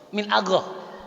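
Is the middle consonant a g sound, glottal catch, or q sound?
g sound. The middle consonant is a voiced g-like sound. This is the Saudi form. "Orang Saudi kira-kira gimana bacanya?"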